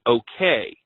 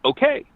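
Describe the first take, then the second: First: OKAY said low, as if checking an order is understood; questioning okay. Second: OKAY pitched high with a lift, as an answer; affirming okay. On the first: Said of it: "like she's questioning this thing". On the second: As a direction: imitate her agreeing "Okay" in a much higher voice. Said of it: "was an affirmation". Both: Retold or imitated.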